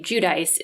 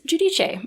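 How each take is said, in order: First: The name has an Americanized pronunciation. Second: The name has its original, non-American pronunciation. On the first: The speaker calls it wrong. "I hear somebody say Judice, it's kind of like makes me cringe a little bit" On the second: The speaker calls it right. "in honor of Giudice Senior, I am going to use Giudice"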